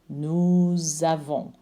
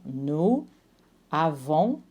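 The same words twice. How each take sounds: First: A Z sound links the words together. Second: The two words are said separately, no link.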